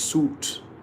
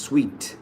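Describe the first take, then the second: First: The word sounds like "suit". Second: The word sounds like "sweet". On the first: The speaker calls it wrong. "We think it is suit" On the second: The speaker calls it right. "It is sweet"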